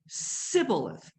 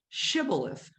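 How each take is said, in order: First: The word begins with an s sound. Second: The word begins with a sh sound. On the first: The speaker is from the Ephraim tribe. "They said sibboleth instead" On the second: The speaker is from the Gilead tribe. "the people from Ephraim couldn't say shibboleth"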